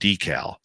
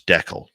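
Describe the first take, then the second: First: It is said in a non-Canadian accent. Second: It is said in a Canadian accent. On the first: The speaker calls it wrong. "You're probably saying decal" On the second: The speaker calls it right. "No, it's decal"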